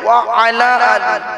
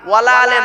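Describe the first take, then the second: First: The words stay apart as wa ala ali. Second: The words merge into wala ale. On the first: It means and upon the family. The speaker calls it right. "শব্দটা হলো কি? ওয়া আলা আলী" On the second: It gives a negative meaning. The speaker calls it wrong. "ওয়ালা আলে বলে কোনো শব্দ নেই"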